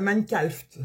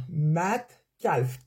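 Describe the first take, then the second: First: Said in the usual way. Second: « Minecraft » étiré très lentement, syllabe par syllabe; traîne sur « Minecraft », comme pour bien l'articuler. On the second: Shown as a demonstration. (« Minecraft » prononcé au ralenti)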